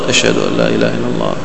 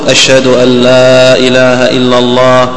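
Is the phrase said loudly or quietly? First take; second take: quietly; loudly. First: The phrase is said in a low, quiet voice. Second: The phrase is said in a raised, loud voice. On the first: "ثم بصوت منخفض" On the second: "ثم يرفع صوته"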